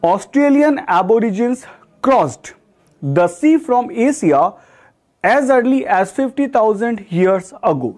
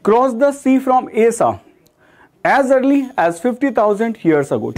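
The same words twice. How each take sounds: First: Very slow, word by word sentence read; slow example reading. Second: Slow, careful second reading of the sentence; slow reread. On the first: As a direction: read the example slowly for students. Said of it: "teacher reads example sentence". (उदाहरण वाक्य धीरे-धीरे पढ़ना) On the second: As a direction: read it again slowly for students. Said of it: "teacher rereads example sentence". (वाक्य दोबारा धीरे पढ़ना) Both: Shown as a demonstration.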